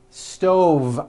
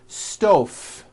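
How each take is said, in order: First: The final consonant is a voiced V sound. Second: The final consonant is voiceless, like an F. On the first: The speaker calls it right. "I should have said stove. with a voiced V" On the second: The speaker calls it wrong. "Was that correct? No"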